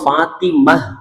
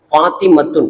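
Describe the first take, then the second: First: The word ends with a soft h sound. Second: The word ends with a t sound and -un. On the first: This is how it is said when stopping. "இத நம்ம ஃபாத்திமஹ் அப்படின்னு சொல்றோம்" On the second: This is the full written reading. "இதுதான் அரபியினுடைய வாசகம்"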